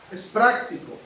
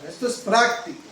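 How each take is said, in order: First: "práctico" said again with the weight on it; echoing "práctico" for emphasis; repeated stress on práctico. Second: "práctico" leaned on at the end, falling; preacher hammering "práctico"; stress on práctico. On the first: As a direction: drive home "práctico" a second time. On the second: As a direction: land firmly on "práctico". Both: Shown as a demonstration. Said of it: "quiero enfatizar la palabra práctico".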